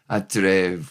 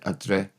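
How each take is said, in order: First: The word ends with a V sound. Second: The word ends without a V sound. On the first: "with an F, making the V sound" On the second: "We often don't pronounce it"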